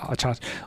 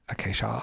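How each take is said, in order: First: The word is said as achacha. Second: The word is said as acacia. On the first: The speaker calls it wrong. "I think achacha is wrong" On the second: The speaker calls it right. "I'm like ninety percent sure that they're acacia"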